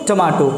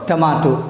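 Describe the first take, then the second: No difference in how they are said.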